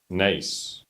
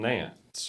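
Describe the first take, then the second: First: The name has no n sound before the s. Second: The name has an n sound before the s. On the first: The speaker calls it right. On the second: The speaker calls it wrong.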